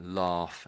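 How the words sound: It is said in a British accent.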